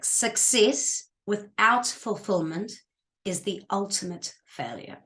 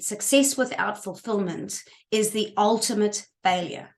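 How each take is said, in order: First: It is spoken slowly and deliberately. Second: It is spoken at a normal, quicker pace.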